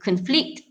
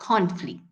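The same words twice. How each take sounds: First: The stress is on the second syllable. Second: The stress is on the first syllable. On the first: It is used as a verb. The speaker calls it right. "sepatutnya is a verb" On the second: It is used as a noun. The speaker calls it wrong. "if you stress on con, it becomes a noun"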